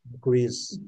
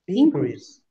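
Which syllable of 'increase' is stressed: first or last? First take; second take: last; first. First: The stress is on the last syllable. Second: The stress is on the first syllable. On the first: It is the verb, meaning to go up. "Qual que é a sílaba forte? É a última" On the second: It is the noun, meaning a rise. "em contrapartida, o substantivo, né, o noun"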